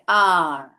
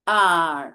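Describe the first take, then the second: Both takes have the same delivery.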